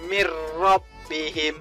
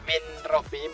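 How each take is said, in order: First: The n merges fully into the following r. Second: The n is clearly sounded before the r. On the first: The speaker calls it right. "Jadi mir robbihim" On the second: The speaker calls it wrong.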